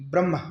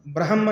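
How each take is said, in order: First: ब्रह्म said as brahm, m before h; correct pronunciation. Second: ब्रह्म split as bra-ha-mma, h before m; wrong pronunciation. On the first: Teacher showing the pupils the right way to say it. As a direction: say ब्रह्म with m and h run together, brahm. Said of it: "हम कहते हैं". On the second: Teacher showing the pupils the wrong way to say it. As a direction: sound out ब्रह्म with the h first, bra-ha-ma. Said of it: "ब्रह्म नहीं कहते". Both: Shown as a demonstration.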